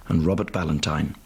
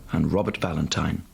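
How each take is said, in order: Both takes have the same delivery.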